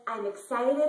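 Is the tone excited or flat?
excited. It is said with real excitement.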